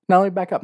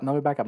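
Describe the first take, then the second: First: Higher and louder call to stop; emphatic aside. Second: Said in the usual way. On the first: Shown as a demonstration. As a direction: announce the backtrack with punch.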